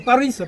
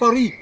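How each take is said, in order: First: Paris is said with an American accent. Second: Paris is said with a French accent. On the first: "Les Américains disent bien Paris" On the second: "pas Paris"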